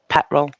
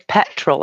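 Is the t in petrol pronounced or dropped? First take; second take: dropped; pronounced. First: The t in the middle is dropped. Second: The t in the middle is clearly pronounced. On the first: It is casual everyday speech. "if I'm just being common as muck" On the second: Someone asked for careful speech. "I'll pronounce the T because you've asked me"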